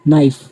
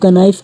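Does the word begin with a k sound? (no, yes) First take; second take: no; yes. First: The word begins with an n sound. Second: The word begins with a sounded k. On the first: The speaker calls it right. "के letter है, वो इस word में silent है" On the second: The speaker calls it wrong. "इसको हम कनाइफ कभी नहीं पढ़ते"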